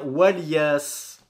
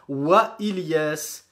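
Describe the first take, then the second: First: Ilyas runs into the previous word with no stop. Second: A glottal stop comes before Ilyas. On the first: "on ne prononce pas le hamza justement" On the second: "on s'arrête sur la hamza"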